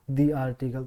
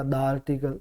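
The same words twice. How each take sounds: First: दी said as a long "dee", set apart from article; dee article. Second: द said as a short "duh" before article, running into the vowel; short da article. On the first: Teacher showing students the correct दी before a vowel. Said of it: "इसको दी पढ़ेंगे". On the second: Teacher sounding out द article for students with a short "duh". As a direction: say द article with a clipped "duh", the form to avoid. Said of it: "तो द article न हो इसलिए". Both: Shown as a demonstration.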